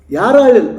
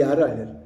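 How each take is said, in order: First: ಯಾರು hit higher and louder; loud emphatic ಯಾರು ಅಳ್ಳಿಲ್ಲ. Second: Said in the usual way. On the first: Real, not acted. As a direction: stress ಯಾರು hard in the first take. Preacher repeats for emphasis.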